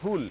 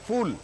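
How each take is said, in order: First: It starts with a breathy p sound, not f. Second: It starts with an f sound, like English 'fool'. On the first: It is the word for flower. The speaker calls it right. "सही शब्द है फूल" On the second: It sounds like the English word for a silly person. The speaker calls it wrong. "फूल तो एफ double O L फूल वाला हो गया"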